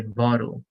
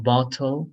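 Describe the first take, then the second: First: "bottle" with a tapped D sound. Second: "bottle" with a crisp T in the middle; clear T. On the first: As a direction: say "bottle" as BOD-ul. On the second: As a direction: say "bottle" as BOT-tul. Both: Shown as a demonstration. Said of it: "T changes to a D sound".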